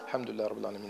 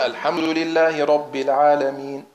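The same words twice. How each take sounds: First: It is recited quietly and rushed. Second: It is recited loudly and carefully. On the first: "Aber leise" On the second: "wenn sie laut lesen"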